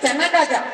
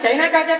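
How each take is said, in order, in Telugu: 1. మొదటి పదాన్ని 'chenna' అని పలుకుతారు. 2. మొదటి పదాన్ని 'chaina' అని పలుకుతారు. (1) "మరి చెన్నా కాజా" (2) "అది చైనా కాజా కాదు"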